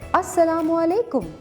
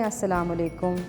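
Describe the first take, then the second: First: The pitch rises high with lively intonation. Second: The pitch stays flat with little intonation.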